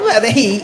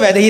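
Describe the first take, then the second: First: The name is said with an exaggerated American accent. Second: The name is said with a plain Indian accent. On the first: This is how she says it after living abroad. "एक साल में accent" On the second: This is the name as the parents gave it. "माँ बाप ने तो वैदेही रखा था"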